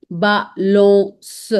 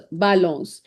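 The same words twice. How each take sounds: First: "balance" split slowly into ba, lon, s; syllable-by-syllable demo. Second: Said in the usual way. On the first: Shown as a demonstration. Teacher breaks down French word, slow ba-lon-s. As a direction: say "balance" in pieces, isolating the final S. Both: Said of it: "it gives a sound of S".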